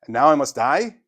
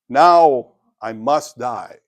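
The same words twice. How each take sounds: First: It sounds incredulous, like a shocked question. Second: It sounds resigned, like calm acceptance.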